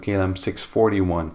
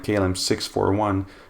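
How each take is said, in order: First: The numbers are combined into larger grouped numbers. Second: The numbers are read one digit at a time. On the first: This is how it is said in the US. "may turn into" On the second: This is how it is said in Europe. "your call sign like"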